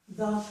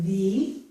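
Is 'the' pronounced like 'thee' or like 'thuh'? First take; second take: thuh; thee. First: The vowel is a short, weak 'uh' sound. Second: The vowel is a long 'ee' sound. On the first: The next word begins with a consonant sound. "I don't use E, instead I use a" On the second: The next word begins with a vowel sound. "this with an E pronunciation"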